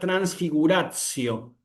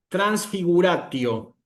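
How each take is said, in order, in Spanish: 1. La T antes de -io no es una T dura. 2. La T antes de -io es una T dura. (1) "esto no se pronuncia como una T fuerte" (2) "el alumno que va muy apresurado en la lectura"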